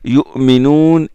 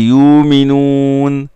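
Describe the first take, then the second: First: A glottal stop is pronounced after the first syllable. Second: The glottal stop is softened into a long vowel. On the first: "la prononciation de la hamza" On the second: "ou de son atténuation selon Nafi'"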